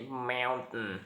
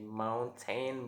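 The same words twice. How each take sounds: First: The T in the middle is glottalized. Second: The T in the middle is fully pronounced. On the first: "if we want to be sound more like American, uh, we say mountain" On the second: "is for the exact pronouns uh, we say mountain"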